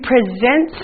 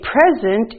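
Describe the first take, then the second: First: The stress is on the second syllable. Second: The stress is on the first syllable. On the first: To show or give something formally, like presenting a lesson. "if you present something, that means like I'm presenting this lesson to you" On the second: A gift given to someone. "you can say present and you're giving a gift"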